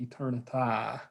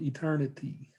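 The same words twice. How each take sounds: First: The final syllable rhymes with day. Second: The final syllable does not rhyme with day. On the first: The speaker calls it right. "It should be eternity to rhyme with day" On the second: The speaker calls it wrong. "I mispronounced that"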